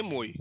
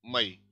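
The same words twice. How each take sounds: First: मोई as a single "moy"; stressed o gliding into y in मोई; one-syllable form. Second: मई as ma-EE, stress on ई; first vowel of मई a short "a", weight on ई; two-syllable form. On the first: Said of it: "इसमें एक ही vowel है". (मोई एक syllable, ओ के साथ) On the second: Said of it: "दूसरे वाले पे स्ट्रेस है". (मई दो सिलेबल, ज़ोर ई पर) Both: Shown as a demonstration.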